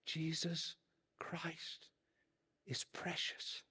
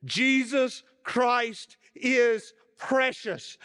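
First: Faint unvoiced whisper; frail old preacher whispering it again. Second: High, loud, slow proclamation; old preacher proclaiming to the whole church; loud exclamation. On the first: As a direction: breathe it out, almost gone. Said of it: "And then he said it again". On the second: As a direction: ring it out to shake the walls. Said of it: "in the loudest voice possible". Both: A narrator's reading.

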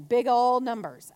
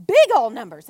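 First: Said in the usual way. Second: "big" punched out much louder; stress on BIG. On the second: Real, not acted. Speaker stressing how huge the offer was, "big" punched loud. Repeats with emphasis after "I mean.

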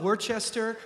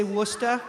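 First: "Worcester" read as spelled, Wor-ches-ter, every syllable said; spelled-out pronunciation. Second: "Worcester" said the local way as WOOS-tuh, two syllables; local pronunciation. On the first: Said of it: "It's spelled". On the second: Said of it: "Why they say". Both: Shown as a demonstration.

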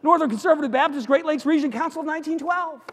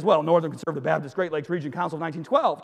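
First: High, loud, keyed-up delivery; breathless-sounding comic build-up; climactic questioning. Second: Fast, lower rattled-off title; brisk, settled reply; matter-of-fact answer. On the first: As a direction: push the long title out excitedly. Climactic question of escalating joke. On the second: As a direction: reel off the long name quickly. Jumper's answer to the question. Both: Acted.

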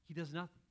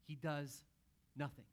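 First: Said in the usual way. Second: "He does" then a pause before "nothing"; dramatic pause. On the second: Shown as a demonstration. Preacher building suspense on what Jesus does, "He does ... nothing" with a pause. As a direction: hold back, then drop "nothing" after a beat.

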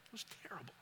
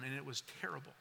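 First: Almost a whisper, much softer, fading to nothing; the memory takes the voice away; barely audible. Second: Softer, trailing down in pain; quiet, pained. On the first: Repeated, nearly gone. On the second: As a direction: let the pain pull the voice down. Painful memory, voice sinking. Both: Real, not acted.

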